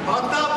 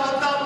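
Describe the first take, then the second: Both takes have the same delivery.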